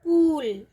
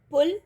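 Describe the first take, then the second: First: पूल with a long drawn ऊ; long oo in pool. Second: पुल with a short उ; पुल, keep the उ short; short u in pul. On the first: Teacher showing the long ऊ in पूल. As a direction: stretch the ऊ in पूल. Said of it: "क्या sound आएगी". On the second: Teacher showing the short उ in पुल. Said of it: "उच्चारण इसका लघु होगा". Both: Shown as a demonstration.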